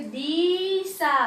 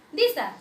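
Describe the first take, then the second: First: दिशा split into long "deee... saa"; drawn-out syllables. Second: दिशा as one quick word; short vowel. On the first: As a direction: stretch दिशा until its syllables come apart. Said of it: "दोनों अलग अलग हो जाएंगे". (दिशा को खींचकर, दी और सा अलग) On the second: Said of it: "मैंने इसे पढ़ दिया". (दिशा, बिना खींचे) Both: Shown as a demonstration.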